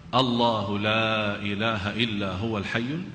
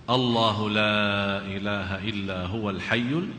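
Both takes have the same delivery.

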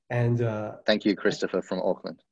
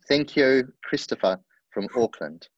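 First: It is read in the speaker's usual accent. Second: It is read in a New Zealand accent.

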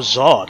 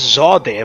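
First: The name is said with one syllable. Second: The name is said with two syllables. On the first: "One syllable" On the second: "They've always been pronouncing that area as Zod-day"

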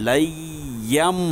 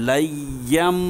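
No difference in how they are said.

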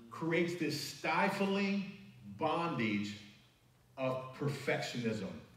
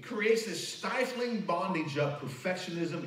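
First: The phrase is spoken very slowly. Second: The phrase is spoken at a normal pace.

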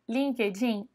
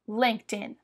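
First: It is said with a Brazilian Portuguese pronunciation. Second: It is said quickly with an English pronunciation. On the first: The speaker calls it wrong. "Não é assim que a gente fala em inglês" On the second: The speaker calls it right. "Você vai falar LinkedIn ... você fala bem rápido"

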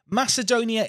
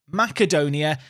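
First: The name is pronounced the Latin way. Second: The name is pronounced the Greek way. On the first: "Macedonia is the Latin way of saying it" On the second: "Macedonia is the Greek way of saying it"

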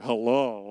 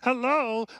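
First: It is said in his natural speaking voice. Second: It is said in a Kermit-like put-on voice.

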